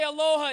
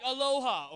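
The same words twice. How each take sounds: First: "aloha" shouted with a long held LO; big drawn-out aloha. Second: Said in the usual way. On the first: Shown as a demonstration. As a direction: belt out aloha, stretching the middle vowel. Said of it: "The way you say aloha". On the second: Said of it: "don't just say it like".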